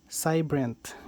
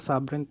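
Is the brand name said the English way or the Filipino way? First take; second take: English; Filipino. First: The name is read the English way. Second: The name is read the local Filipino way. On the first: This is how English speakers say it. "Pagka English naman eh, ang tawag dito eh, Cybrent" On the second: This is how locals read it. "sa atin, ang basa natin dito, subrent"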